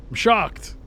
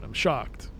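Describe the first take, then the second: First: I'm shocked, jumps higher and louder; hammed-up gasp of shock; mock shock. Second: Said in the usual way. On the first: Shown as a demonstration. Streamer repeats the line, now hamming up the shock.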